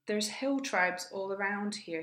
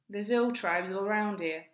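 First: The h sounds in hill and here are pronounced. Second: The h sounds in hill and here are dropped.

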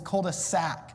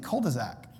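First: The final sound is a hissing S. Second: The final sound is a buzzing Z. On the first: The speaker calls it right. "cul-de-sac with an S" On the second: The speaker calls it wrong. "I pronounce the S like it's a Z"

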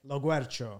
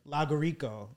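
First: The middle sounds like guer, as in the original. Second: The middle sounds like guri, with syllables rearranged. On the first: This is how the family says the name. The speaker calls it right. "You say it?" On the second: This is what teachers actually said. The speaker calls it wrong. "but I would get like Lagurico"

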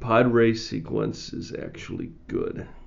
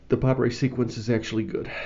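First: It is said slowly. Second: It is said at normal speed.

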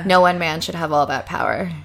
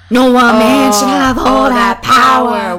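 First: The voice is the speaker's ordinary natural voice. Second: The voice is put on and sounds demonic. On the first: "So should I say it in my regular voice?" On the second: "You just literally sounded demonic"

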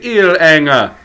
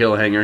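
First: The name starts without any h sound. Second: The name starts with a clear h sound. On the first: "He'd say Ilhanger" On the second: "He wouldn't say Hillhanger"

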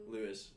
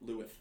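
First: The name ends with a clear s sound. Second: The name ends with a lisped th sound.

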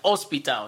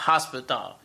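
First: The word starts without an h sound. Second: The word starts with an audible h sound. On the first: The speaker calls it right. "H has no sound. That's why it's hospital" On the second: The speaker calls it wrong. "not hospital"

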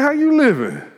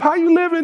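First: The question sounds reproachful and disapproving. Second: The question sounds warm and friendly. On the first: A rebuke telling someone to sort themselves out. "you better get your life. You better check yourself" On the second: A greeting asking how someone is doing. "You see somebody you ain't seen in a while"

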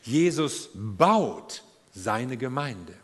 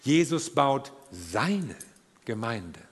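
First: The stress is on baut. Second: The stress is on seine.

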